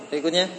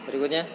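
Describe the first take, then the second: No difference in how they are said.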